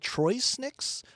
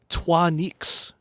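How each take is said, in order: First: The first part is said like English 'Troy'. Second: The first part is said like French 'trois'. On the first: "not sure how to pronounce that" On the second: "like in French"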